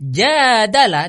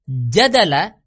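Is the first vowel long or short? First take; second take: long; short. First: The first vowel is long. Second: The first vowel is short. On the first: They argued with each other. "dipanjangkan jimnya" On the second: They argued. "itu adalah berhujjah atau berdebat"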